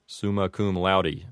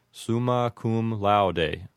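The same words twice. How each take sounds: First: "laude" as "law-dee"; American "cum laude" ending in "dee"; Americanized Latin. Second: "laude" as "lau-day", said slowly; "summa" with "soo", slow and careful; classical Latin. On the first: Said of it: "Americanized pronunciation". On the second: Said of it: "authentic classical pronunciation". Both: Shown as a demonstration.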